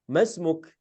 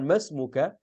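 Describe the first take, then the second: First: The word ends on a bare consonant. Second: The word ends with a final vowel sound. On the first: "dia mensukunkan huruf terakhirnya" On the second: "boleh mengatakan mas muka"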